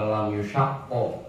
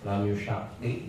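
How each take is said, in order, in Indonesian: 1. Kata itu berakhir dengan vokal a. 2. Kata itu berakhir dengan vokal i. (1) "boleh dibaca fathah" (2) "kasrah boleh"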